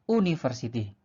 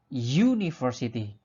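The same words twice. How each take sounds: First: The word begins with a plain vowel sound. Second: The word begins with a 'y' consonant sound. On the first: The speaker calls it wrong. "bukan university" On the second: The speaker calls it right. "melainkan university. ... bunyi U, Y, U adalah bunyi konsonan"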